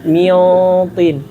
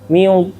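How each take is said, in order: First: The heavy sound is said with relaxed, unrounded lips. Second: The heavy sound is said with pushed-out, rounded lips. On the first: The speaker calls it right. "Biasa aja" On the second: The speaker calls it wrong. "enggak kayak gini"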